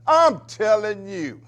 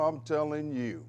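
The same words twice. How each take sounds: First: "I'm telling you" slow, high and loud; emphatic repeat. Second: Said in the usual way. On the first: Real, not acted. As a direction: punch out "I'm telling you", stretching every word.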